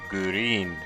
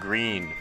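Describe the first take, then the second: First: An extra oo vowel breaks up the opening consonants. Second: It is said as one syllable with no extra vowel.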